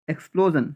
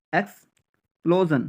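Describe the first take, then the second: First: Said in the usual way. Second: explosion as eks, pause, plo-zon; split into parts. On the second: Shown as a demonstration. Teacher drilling learners, explosion split with a pause after eks. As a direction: put a clear break inside explosion. Teacher breaks word into pieces.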